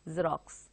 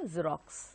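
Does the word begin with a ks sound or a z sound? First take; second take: z sound; z sound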